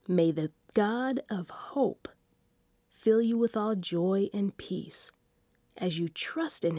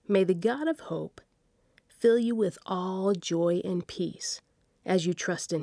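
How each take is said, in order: First: It is read slowly and deliberately. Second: It is read at a normal, ordinary pace.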